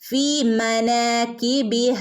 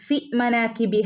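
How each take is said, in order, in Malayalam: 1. "fi" എന്നതിലെ സ്വരം ദീർഘമാണ്. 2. "fi" എന്നതിലെ സ്വരം ഹ്രസ്വമാണ്. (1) "ഫി രണ്ട് ഹറക്കത്ത് അവിടെ നീട്ടി കൊടുക്കണേ" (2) "വെറും ഫി മനാക്കി ഫി മനാകിബിഹ അല്ല"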